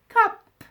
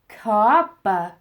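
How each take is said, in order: First: The word ends cleanly on the p sound. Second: An extra vowel sound follows the final p. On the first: "You will say, listen, k op, cop" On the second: "your kids will want to go k oppa, coppa"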